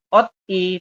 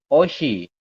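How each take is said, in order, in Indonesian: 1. Bunyi t mengakhiri suku kata pertama, terpisah. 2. Bunyi sh memulai suku kata kedua, tersambung. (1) "tulisannya ot-i" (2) "Anda membacanya adalah oshi"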